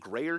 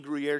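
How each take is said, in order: First: The first syllable sounds like 'gray'. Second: The first syllable does not sound like 'gray'. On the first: The speaker calls it wrong. "I was saying grayer cheese, gray. I couldn't pronounce the word" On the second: The speaker calls it right. "I still am hoping I'm saying it right"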